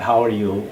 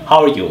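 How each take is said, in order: First: It is said at a slow, careful speed. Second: It is said at a quick, fluent speed.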